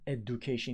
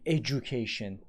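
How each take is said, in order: First: The middle consonant is a plain d sound. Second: The middle consonant is a j sound. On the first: The speaker calls it wrong. "It is not education" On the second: The speaker calls it right. "the d becomes j there"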